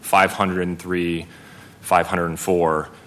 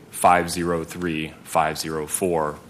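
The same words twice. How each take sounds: First: The numbers are read as whole numbers. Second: The numbers are read digit by digit. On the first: The speaker calls it wrong. "instead of saying" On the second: The speaker calls it right. "the digits like you would expect to hear a phone number"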